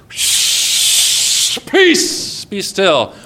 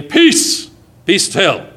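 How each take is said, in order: First: Whispered hush. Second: Commanding calm. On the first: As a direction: hush the hurricane like a child. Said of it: "goes out to Hurricane Isaac ... and says". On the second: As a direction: order the storm to stop. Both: Acted.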